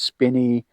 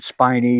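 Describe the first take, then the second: First: The first vowel is a short 'ih' sound. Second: The first vowel is a long 'eye' sound. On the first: Other people pronounce it this way. "Some people say it's Spinny" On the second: This is the speaker's own habitual pronunciation. "I pronounce it Spiny"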